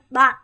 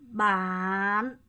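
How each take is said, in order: First: The word is said quickly and short. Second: The word is said slowly and drawn out.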